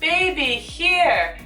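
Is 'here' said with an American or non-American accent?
American. The word here has an American pronunciation. The speaker calls it right.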